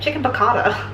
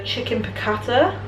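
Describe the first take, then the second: First: Light mock American accent on Chicken piccata. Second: Said in the usual way. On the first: Joking about how the dish sounds, mock American accent. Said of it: "like an American person being like". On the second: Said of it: "It sounds wrong in an English accent".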